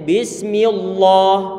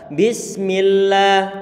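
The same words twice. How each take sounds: First: The L sound is heavy and thick. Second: The L sound is light and thin. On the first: The speaker calls it wrong. "tidak boleh bismillah. Ini tidak diperboleh diperbolehkan" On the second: The speaker calls it right. "maka kita baca bismillah"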